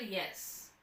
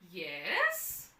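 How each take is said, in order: First: It sounds flat and uninterested. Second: It sounds relaxed and welcoming.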